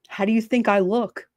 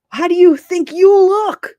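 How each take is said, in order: First: Said in the usual way. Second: Slow, high and loud, YOU hit hard; indignant comeback. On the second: Acted. Streamer turns the question back on someone, indignant stress on "you". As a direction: throw it back with heavy weight on "you".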